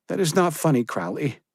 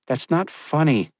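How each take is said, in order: First: Higher, hurt woman's voice; upset young woman. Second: Higher, reproachful woman's voice; stern young woman. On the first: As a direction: rebuke him near tears. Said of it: "she said, looking away as tears welled". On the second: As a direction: rebuke him, not amused. Josephine rebuking. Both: Acted.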